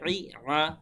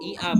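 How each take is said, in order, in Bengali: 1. স্বরধ্বনিগুলো গলার গভীর থেকে চেপে বলা হয়। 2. স্বরধ্বনিগুলো সহজ, গলায় কোনো চাপ নেই। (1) "বলতে হবে ই আ ই আ এভাবে" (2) "ই আ বলা যাবে না"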